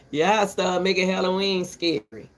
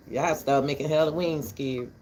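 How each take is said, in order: First: Louder opening complaint; louder first take. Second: Said in the usual way. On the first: Real, not acted. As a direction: say it out louder, pressing the point. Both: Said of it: "repeats the line".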